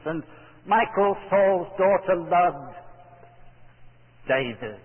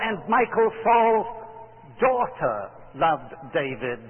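First: The word David is stressed. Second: The word daughter is stressed. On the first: It was exactly this man whom she loved. "would you emphasize the last word in the sentence" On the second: A daughter, not only a son, loved him. "do you emphasize the word daughter"

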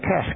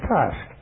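First: It is said in an American accent. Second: It is said in a British accent. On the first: This is the form required in an American unit. "I had to say task" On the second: This is the speaker's own usual form. "instead of task"

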